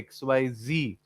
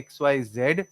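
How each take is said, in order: First: The last letter is pronounced zee. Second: The last letter is pronounced zed. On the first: This is the American way of saying it. "Americans say Z for this same alphabet. So ... they would say X Y Z" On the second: This is the British way of saying it. "they won't say X Y Z"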